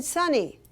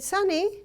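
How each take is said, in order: First: Stern name call. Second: Calling Sonny higher; raised call of the name Sonny; calling the child. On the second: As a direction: call out to get his attention. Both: Retold or imitated. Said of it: "I said".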